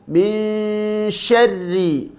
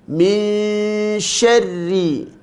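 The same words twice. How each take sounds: The two takes are said the same way.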